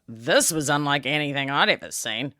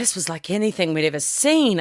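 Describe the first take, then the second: First: It is said in a disgusted, alarmed tone. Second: It is said in an admiring, impressed tone. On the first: The thing seen was alarming or unhealthy. "I'll go to the doctor on Monday" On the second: The thing seen was wonderful. "I'd be like, wow, thank you"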